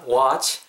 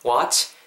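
First: The final ch sound is short and soft. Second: The final ch sound is long and strongly hissed. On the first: "watch 이렇게 하셔도 되겠지만" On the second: "치치치 약간 이렇게 watch, ch 발음 좀 살려주시면 좋을 것 같고요"

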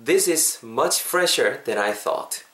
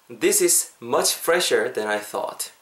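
No difference in how they are said.

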